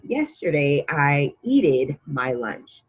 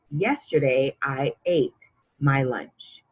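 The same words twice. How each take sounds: First: "eated" said slowly, as the wrong form; slow, deliberate "Yesterday I eated my lunch"; wrong example. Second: "ate" stressed as the right form; correct example. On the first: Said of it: "That doesn't make sense". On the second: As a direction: say "Yesterday I ate my lunch" clearly, stressing "ate". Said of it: "We changed the spelling so that it makes sense". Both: Shown as a demonstration.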